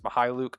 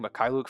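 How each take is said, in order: First: The middle consonant sounds like an 'h'. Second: The middle consonant sounds like a 'k'. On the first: The speaker calls it right. "I'm now realizing it's Mihailuk" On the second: The speaker calls it wrong. "I've been saying Mikhailuk for a while"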